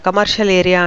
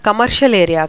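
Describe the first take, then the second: No difference in how they are said.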